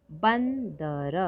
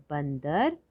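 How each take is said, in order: First: Slow drawn-out model word. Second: Said in the usual way. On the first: Shown as a demonstration.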